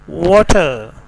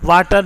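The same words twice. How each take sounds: First: It starts with a rounded W sound. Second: It starts with a V sound. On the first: The speaker calls it right. "बल्कि वाटर" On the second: The speaker calls it wrong. "वाटर नहीं"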